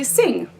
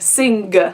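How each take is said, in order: First: It ends on ng with no separate g. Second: A separate hard g is heard at the end. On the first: The speaker calls it right. "So we just say sing" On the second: The speaker calls it wrong. "It would sound pretty ridiculous if I said sing. So you see how like pronounced the g sound is?"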